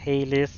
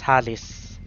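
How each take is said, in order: First: The name is said in an American way. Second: The name is said in a Filipino way. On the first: "if I were an American, I would uh, pronounce it as Halis" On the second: "regular Filipinos would pronounce it as Halis"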